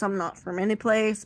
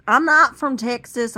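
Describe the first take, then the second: First: Said in the usual way. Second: Texas accent. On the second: Shown as a demonstration. Speaker shows off the Texas accent they can use, Texas accent. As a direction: put on a Texas twang, loud. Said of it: "I can use this accent if I want to".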